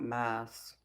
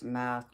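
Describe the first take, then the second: First: "maths" with a final s, mimicking the chatter's spelling. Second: Said in the usual way. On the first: Shown as a demonstration. Mocking a viewer's "maths", s sound added at the end. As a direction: say "maths" ending in a clear s sound. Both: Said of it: "I don't know why you put an S on the end of it".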